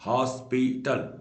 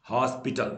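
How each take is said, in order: First: hospital slowed into three distinct beats; syllable by syllable. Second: Said in the usual way. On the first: Shown as a demonstration. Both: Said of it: "तीन बार word टूटा".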